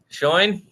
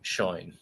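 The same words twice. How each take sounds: First: The voice rises like a question. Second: The voice falls like a statement. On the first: Disbelief that it is already time. "if you just say it in a questiony way" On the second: Confirmation that it is already time. "already, affirmative"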